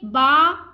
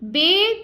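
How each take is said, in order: First: It is said in Arabic style, ending in 'a'. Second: It is said in Urdu style, ending in 'e'. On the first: The speaker calls it right. "अरबी लहजे में अदा करें" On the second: The speaker calls it wrong. "Urdu तलफ़्फ़ुज़ से परहेज करें"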